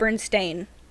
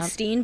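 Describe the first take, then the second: First: The last part is said like 'stain'. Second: The last part is said like 'steen'. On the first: This is the actual name. The speaker calls it right. "but it's" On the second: This is how the name was always remembered. The speaker calls it wrong. "I always pronounced it"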